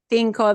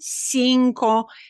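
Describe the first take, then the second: First: The first consonant sounds like th. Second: The first consonant sounds like s. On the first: This is how it is said in Spain. "In Spain, it's cinco. The C I combinations are always a T H" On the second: This is how it is said in Latin America. "where we say cinco"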